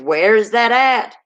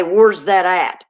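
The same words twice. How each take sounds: First: "Where's" with a clear "air" vowel, slowly; slow, higher, careful "Where's"; standard pronunciation. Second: "Where's" as "wurz", drawn out; dialect pronunciation. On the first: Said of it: "Instead of". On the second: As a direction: say "Where's" with an "ur" vowel. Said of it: "I'll say". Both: Shown as a demonstration.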